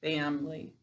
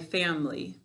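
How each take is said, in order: First: The middle vowel is reduced or dropped. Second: The middle vowel is reduced or dropped.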